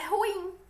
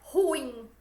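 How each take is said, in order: First: The stress falls on the I sound. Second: The stress falls on the U sound. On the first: The speaker calls it right. "o acento tônico ele está como se fosse no I" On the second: The speaker calls it wrong. "não é ruim"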